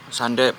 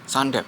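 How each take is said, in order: Both takes have the same delivery.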